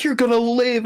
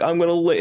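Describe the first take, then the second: First: High-pitched urgent promise; Deadpool. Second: Raised-pitch hopeful echo; Nice Pool. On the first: Deadpool to dying Nice Pool, high acted insistence. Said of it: "And then Deadpool's like". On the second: Dying man echoing the promise, high acted hope. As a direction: echo it back, a little less high. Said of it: "and Nice Pool's like". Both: Retold or imitated.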